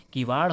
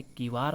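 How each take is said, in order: First: किवाड़ ending in retroflex flap; hard flap closing किवाड़; correct pronunciation. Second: किवाड़ ending in plain R; straight-tongued R closing किवाड़; incorrect pronunciation. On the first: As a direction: say किवाड़ with curled-tongue Ṛ. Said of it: "किवाड़ होता है". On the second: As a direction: say किवाड़ as "kivaar". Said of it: "नहीं होता". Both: Shown as a demonstration.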